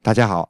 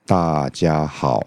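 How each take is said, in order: First: It is said at a moderate speed. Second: It is said very slowly.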